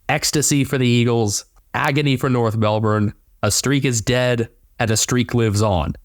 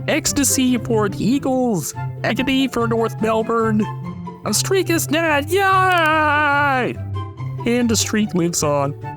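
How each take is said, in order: First: It is read in his natural voice. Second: It is said in a Kermit the Frog voice.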